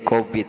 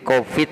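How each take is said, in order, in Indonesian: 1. Kata itu diucapkan dengan bunyi B. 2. Kata itu diucapkan dengan bunyi V.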